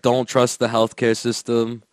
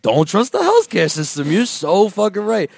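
First: Low-pitched retold warning; matter-of-fact advice. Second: Mock enthusiastic echo, pitch rising; eager agreement. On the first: Pakistani lady advising her seatmate, low matter-of-fact warning. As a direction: state it low and evenly. Lady's advice, then girl echoes. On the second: Girlfriend agreeing with her new best friend, mock eager echo. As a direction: echo it as if suddenly convinced.

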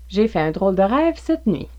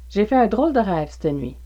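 First: Said in the usual way. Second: "c'te nuit" said "stə nuit", the e of "cette" dropped; québécois c'te nuit. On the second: Shown as a demonstration. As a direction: clip "cette" down to "st" before "nuit". (« c'te nuit » dit « stə nuit », à la québécoise) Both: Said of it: "pourrait être prononcé".

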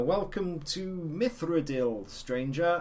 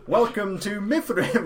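First: Higher, slow sing-out welcome; game NPC greeting. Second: Higher, louder welcome; game NPC retake. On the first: Retelling an NPC's botched take, high and slow greeting. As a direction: greet the traveller in drawn-out video game dialogue. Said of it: "there's a, an N P C that you can talk to". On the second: Actor redoing a game greeting, high and loud retake. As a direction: relaunch the line brightly as a second take. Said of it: "let me do that again". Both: Acted.

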